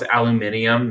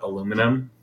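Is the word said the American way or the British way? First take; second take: British; American. First: It has an extra syllable before the ending. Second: It has no extra syllable before the ending. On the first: The speaker calls it right. "it's aluminium, Ask any British person" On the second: The speaker calls it wrong. "not aluminum"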